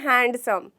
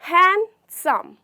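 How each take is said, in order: First: The d sound is pronounced. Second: The d sound is left silent. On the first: The speaker calls it wrong. "ना कि हैंडसम। जी नहीं, वो बहुत गलत sound करता है" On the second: The speaker calls it right. "Letter डी जो कि है वो साइलेंट होता है"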